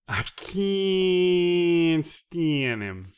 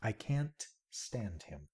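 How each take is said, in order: First: Loud, very slow, stretched out; loud drawn-out. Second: Soft and slow; quiet. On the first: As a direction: belt it out slowly. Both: Shown as a demonstration. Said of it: "No, no, no".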